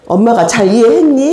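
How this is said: It is asked in a gentle, sincere tone. The mother genuinely wants to check her understanding. The speaker calls it right. "정말로 엄마가 잘 이해했니?"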